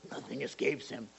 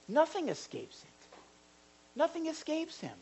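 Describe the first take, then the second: First: Low, quiet ominous warning; mock-stern, hushed pronouncement; judgmental. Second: High, soft note of wonder; hushed, lifted reassurance; reassuring. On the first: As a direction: drop low as if passing judgment. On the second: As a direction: marvel softly that he sees everything. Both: Shown as a demonstration. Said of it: "that's not like a ju".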